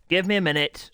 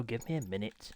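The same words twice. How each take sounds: First: Louder, higher, losing patience; exasperated streamer snapping at chat; snappy and irritated. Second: Softer, tired under the breath; a muttered aside after snapping; quieter repeat. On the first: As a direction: snap it out, loud and high, fed up. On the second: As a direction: drop it right down, muttered to self. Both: Real, not acted. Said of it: "Sorry for my temper and attitude there".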